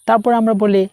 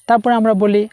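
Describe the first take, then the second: The two takes are said the same way.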